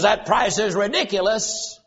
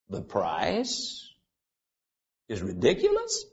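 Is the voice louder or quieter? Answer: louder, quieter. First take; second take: louder; quieter. First: It is said at normal loudness, as a statement. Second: It is said in a lowered voice, as a question. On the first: The speaker makes a complaint about the price. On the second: The complaint is turned back for the other person to justify.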